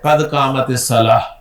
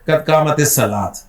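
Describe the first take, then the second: First: The last word ends with an h sound. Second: The last word ends with a t sound. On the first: The speaker calls it right. "हा के साथ प्रोनाउंस करें" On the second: The speaker calls it wrong. "ना के"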